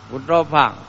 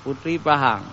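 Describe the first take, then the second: First: The second word is shortened to one syllable, Pang. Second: The second word has two syllables, Pahang.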